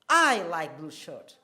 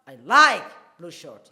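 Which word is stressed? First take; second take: I; like. First: The stress falls on the word I. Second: The stress falls on the word like. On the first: "here I am stressing I" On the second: "we will now shift the stress... like there is the"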